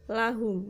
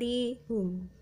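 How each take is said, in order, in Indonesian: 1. Vokal pertama adalah bunyi a terbuka. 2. Vokal pertama adalah bunyi i tertutup. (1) "lamnya dibaca la" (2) "bukan lihum"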